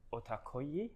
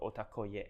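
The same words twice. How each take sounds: First: Otakoye with the I sound at the end; first guess at name. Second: Otakoye ending in an open YEH; second guess at name. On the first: Client guesses the company's name aloud, first guess at pronunciation. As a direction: say Otakoye ending on a long ee. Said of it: "emphasize the I at the end". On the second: Client offers an alternative company name, second guess at pronunciation. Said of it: "I'm not sure if I should emphasize". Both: Shown as a demonstration.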